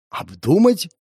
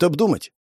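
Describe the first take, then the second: First: Higher-pitched, stunned echo; taken aback. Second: Said in the usual way. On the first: A narrator's reading. Man repeating boss's word back, taken aback. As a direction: echo ОБДУМАТЬ as a dumbfounded question. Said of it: "опешил я".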